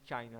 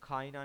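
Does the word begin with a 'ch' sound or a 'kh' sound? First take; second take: ch; kh. First: The word begins with a 'ch' sound. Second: The word begins with a 'kh' sound. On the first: The speaker calls it right. "चाइना है" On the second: The speaker calls it wrong. "खाइना नहीं है"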